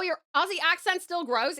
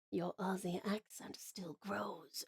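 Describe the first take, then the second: First: Said in the usual way. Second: Slow, menacing whisper; whispered mock threat. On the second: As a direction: whisper it like an ominous warning. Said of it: "It sounds like a threat".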